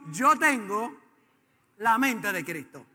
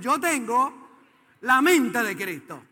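First: It is said at normal volume. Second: It is said with more force.

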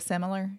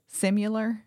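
First: The word does not sound like 'simulation'. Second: The word sounds like the start of 'simulation'. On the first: The speaker calls it right. "instead of similar" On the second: The speaker calls it wrong. "Similar instead of similar"

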